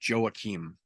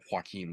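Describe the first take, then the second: First: The name ends with an m sound. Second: The name ends with an n sound. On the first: This is how the fighter's own name is said. The speaker calls it right. "I believe they said his name is Joaquim" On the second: This is the usual form of the name. The speaker calls it wrong. "not Joaquin, like the traditional pronunciation"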